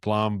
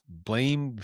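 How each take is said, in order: First: The name rhymes with ham. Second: The name rhymes with game. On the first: This is how the speaker has heard it said. "I've heard it pronounced Blam" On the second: This is how some people say it. "some people say pronounce it"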